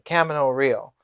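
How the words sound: It is said with an American English pronunciation. "he liked the American uh, pronunciation"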